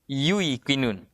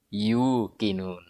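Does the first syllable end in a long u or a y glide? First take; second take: y glide; long u. First: A short u is followed by a y glide. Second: A long u is held with no glide. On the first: This is the original form, hard to pronounce. "ya sukun didahului harakat dhammah" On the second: This is the simplified form actually used. "diganti dengan huruf mat"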